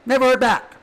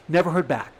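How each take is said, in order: First: Never heard back shouted high and loud; loud bitter outcry. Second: Said in the usual way. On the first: Shown as a demonstration. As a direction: fling the words out in a hurt cry. Repeats line three ways.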